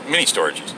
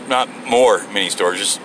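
First: Said in the usual way. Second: "more" hit hard, as in more of them; stress on more. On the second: Shown as a demonstration. Self-correcting listeners, wrong stress on "more". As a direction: stress "more" before "mini storages". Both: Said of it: "Sorry, not more mini storages".

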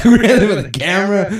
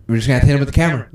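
First: High, fast and louder, laughing into it; hyped-up nervous bravado; excited. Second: Said in the usual way. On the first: Retold or imitated. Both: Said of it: "repeats it".

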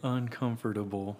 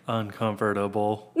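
First: "Uncomfortable" with every syllable spoken; "Uncomfortable" spelled-out pronunciation, un-com-for-ta-ble; overly enunciated. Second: Stiff, robotic "Uncomfortable". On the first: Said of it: "that just sounds weird". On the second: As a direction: say it like a machine. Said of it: "It sounds robotic". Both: Shown as a demonstration.

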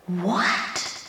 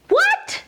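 First: A low, soft, incredulous what; stunned disbelief. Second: What? shot up very high with a rising tune; a sharp, high, incredulous what; outraged disbelief. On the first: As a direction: let it drop out quietly in shock. Reacting in disbelief to scripture. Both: Real, not acted.

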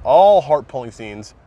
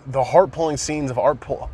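First: ALL drawn out and louder; stress on ALL. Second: Said in the usual way. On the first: Real, not acted. Fan correcting himself about the scenes, stress on ALL. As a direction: lean hard and slowly on "all".

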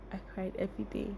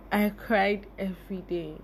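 First: Much softer, fading echo of the line; quiet repeat. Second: Said in the usual way. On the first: Real, not acted. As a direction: let it sink to almost nothing.

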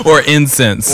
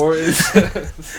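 First: Said in the usual way. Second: Slow, loud, laughing through the words. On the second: Real, not acted. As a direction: drag it out while cracking up. Echoes the line while laughing.

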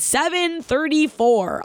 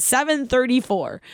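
First: Slow, drawn-out time call from the teacher; slow announcement. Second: Savoring the time. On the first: Gym teacher calling out her mile time, slowly. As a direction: stretch each word like a stopwatch reading. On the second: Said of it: "I'll never forget it". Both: Retold or imitated.

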